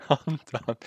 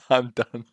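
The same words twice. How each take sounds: First: Higher, laughing it out; laughing defeat. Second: Louder, fed up; fed up outburst. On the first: Coder laughing in defeat after the crash. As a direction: laugh it off, giving up. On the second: Coder giving up loudly on the crash. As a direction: blurt it out, defeated. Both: Real, not acted.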